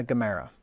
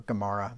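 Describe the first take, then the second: First: Gemara said as guh-MEH-ruh; first pronunciation. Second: Gemara said as guh-MAH-ruh; alternative pronunciation. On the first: Preacher unsure of the word, Gemara as guh-MEH-ruh. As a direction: say "Gemara" with an EH in the stressed middle. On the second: Preacher offers another way, Gemara as guh-MAH-ruh. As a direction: say "Gemara" with an AH in the stressed middle. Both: Shown as a demonstration. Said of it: "not sure how you pronounce that".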